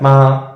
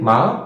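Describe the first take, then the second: First: The pitch stays level throughout. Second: The pitch rises steadily. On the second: "Rising, ... goes up"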